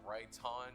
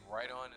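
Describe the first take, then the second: First: The middle consonant is a clear T sound. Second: The middle consonant sounds like a soft D. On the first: The speaker calls it right. "instead of right on" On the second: The speaker calls it wrong. "I like make his T silent and I say right on"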